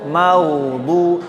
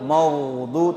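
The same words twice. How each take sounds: First: The first syllable sounds light and thin. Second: The first syllable sounds heavy and dark. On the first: The speaker calls it right. "ma di sini tipis muraqqaqah" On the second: The speaker calls it wrong. "jangan menjadi tebal"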